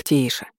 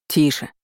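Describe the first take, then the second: First: Soothing hush. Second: Restrained shout of "Тише"; understated cry to quieten someone; called-out hush. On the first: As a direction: gently settle a struggling creature. Soothing the netted, struggling mermaid. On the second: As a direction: say "Тише" as a short command, not at full volume. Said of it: "крикнул он истерично бьющемуся". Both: A narrator's reading.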